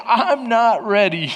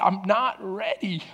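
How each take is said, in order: First: Slow, drawn out, at normal volume; slow emphatic repeat. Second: Soft, choked-up retelling; barely able to talk. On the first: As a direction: stretch out each word deliberately. Repeats own tearful line, slower. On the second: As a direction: say it quietly, as if holding back sobs. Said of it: "I can't hardly talk". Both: Retold or imitated.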